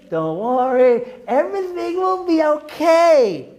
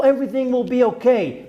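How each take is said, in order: First: Higher, slow sugary parody of false comfort; mock reassurance. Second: Said in the usual way. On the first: Rabbi mocking people who give false hope, syrupy mock calm. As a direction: sneer at the comforters by sounding sweetly naive. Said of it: "some people have the nerve to say". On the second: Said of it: "To give false hope to people".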